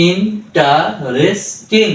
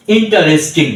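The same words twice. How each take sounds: First: interesting drawn out slowly, syllables joined; slow blended word. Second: Said in the usual way. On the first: Shown as a demonstration. Tutor joins the drilled syllables for learners, slowly. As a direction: stretch interesting out slowly, joining ইন, টা, রেস, টিং. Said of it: "তাহলে আমরা এখানে ভেঙেছি". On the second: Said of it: "এখন যদি আমি বলি".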